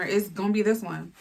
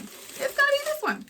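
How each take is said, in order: First: Said in the usual way. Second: "It's gonna be this one" squealed very high at the top of the voice. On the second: Acted. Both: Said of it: "repeated with rising emphasis".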